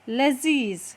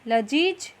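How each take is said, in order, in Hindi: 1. यह z ध्वनि से बोला जाता है। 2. यह सामान्य j ध्वनि से बोला जाता है। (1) "नुक्ता लगाने के बाद यही शब्द अब बन जाएगा" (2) "यहाँ हमें ऐसे ही नुक्ता लगाकर शब्दों को पूरा करना है"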